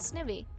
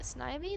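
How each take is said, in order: First: The first vowel is short, as in 'give'. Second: The first vowel is long, as in 'eye'. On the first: The speaker calls it right. "I pronounce it Snivy" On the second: The speaker calls it wrong. "That sounds really weird. Sounds like it's a sniper"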